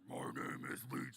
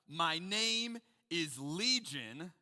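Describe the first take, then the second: First: It is said in a deep, throaty voice. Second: It is said in an ordinary speaking voice.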